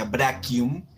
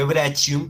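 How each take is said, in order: First: Brachium said "BRA-kium"; correct Latin pronunciation. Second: Brachium said "BRA-chium"; as spelled. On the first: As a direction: say brachium with a hard k. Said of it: "pero se pronuncia brachium". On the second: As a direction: read brachium with a Spanish ch. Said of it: "se escribe brachium". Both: Shown as a demonstration.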